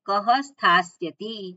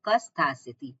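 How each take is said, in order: First: A breathy h sound follows ka. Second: No breathy h sound follows ka. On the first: "વિસર્ગનો વિસર્ગ રે" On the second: "વિસર્ગનો લોપ થયો છે"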